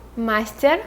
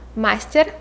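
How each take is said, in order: First: It is said with a Russian pronunciation. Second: The same.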